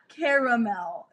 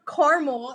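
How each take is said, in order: First: The word is said with three full syllables. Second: The word is said with only two syllables. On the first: The speaker calls it right. "Caramel. It's not caramel" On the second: The speaker calls it wrong. "It's like they forget the A is there"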